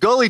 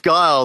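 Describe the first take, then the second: First: The name is said with a final 'ee' vowel. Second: The name is said ending in an 'l' sound. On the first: The speaker calls it wrong. "people used to pronounce Guile as Gully" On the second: The speaker calls it right. "I think it's Guile"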